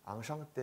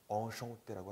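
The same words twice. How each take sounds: First: Enchanté as 앙샹떼 with open 앙; wrong Korean enchanté. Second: Enchanté with nasal 엉, 엉셩떼; French enchanté. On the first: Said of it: "이렇게 하시면 안 돼요". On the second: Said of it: "enchanté라고 하셔야 되는 거예요". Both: Shown as a demonstration.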